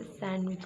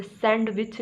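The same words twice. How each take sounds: First: सैंडविच with silent D, SAN-wich; correct pronunciation. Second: सैंडविच with a heavy D, SAN-DUH-WICH; wrong pronunciation. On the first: Teacher corrects learners, demonstrating the right way. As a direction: drop the D from सैंडविच. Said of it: "आप इसे सैंडविच कहेंगे". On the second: Teacher corrects learners, demonstrating the wrong way. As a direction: stress the unwanted D in सैंडविच. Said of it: "सैंडविच नहीं बोलेंगे". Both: Shown as a demonstration.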